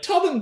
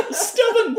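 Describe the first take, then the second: First: "Tubbin" squeaked out high, the st dropped; "Tubbin" chirped high for laughs; mangled stubborn. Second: "Stubborn" laughed out high and bright; "Stubborn" said high through laughter; laughing stubborn. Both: Retold or imitated. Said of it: "any of the words that are like".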